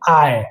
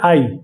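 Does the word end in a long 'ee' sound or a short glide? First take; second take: short glide; long ee. First: The word ends in a short 'y' glide. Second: The word ends in a drawn-out 'ee' sound. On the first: The speaker calls it right. "इसको हम लोग बोलेंगे आय" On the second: The speaker calls it wrong. "ज्यादातर लोग यही बोलते हैं आई ... वो गलत है"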